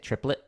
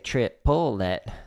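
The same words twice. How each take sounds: First: The word is said with two syllables. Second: The word is split into three syllables. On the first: "But if like pronouncing it triplet" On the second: "if I'm teaching it, I'd say triplet, so that way you can, you know, one, two, three"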